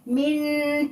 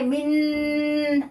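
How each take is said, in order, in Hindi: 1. यह बिना नासिका ध्वनि के बोला जाता है। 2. यह नासिका ध्वनि के साथ बोला जाता है। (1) "नेजल साउंड नहीं होगा" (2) "ऐसे नहीं करेंगे मिन, आपको महसूस होगा कि नाक में नेजल साउंड बन रहा है"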